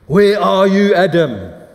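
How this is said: It is said in an angry, stomping tone.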